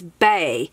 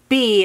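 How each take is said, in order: First: The name is said with an 'ay' vowel. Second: The name is said with an 'ee' vowel. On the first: The speaker calls it right. "it's Bay" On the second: The speaker calls it wrong. "it's not B"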